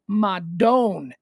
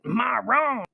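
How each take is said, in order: First: The middle consonant is a d sound. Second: The middle consonant is an r sound. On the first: The speaker calls it right. "It's actually madone, M A D O N E" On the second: The speaker calls it wrong. "Everybody pronounces it maron"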